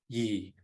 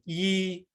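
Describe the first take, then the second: First: The word is said on a low level tone. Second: The word is said on a high level tone. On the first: It means hair. "low toned yi for hair" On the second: It means year. "high toned yi for year"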